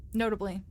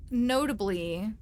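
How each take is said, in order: First: Said in the usual way. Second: Notably stretched slowly with a rising tune; slow drawn-out notably. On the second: Acted. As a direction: drag out notably with a rise. Dramatic pause-laden confession.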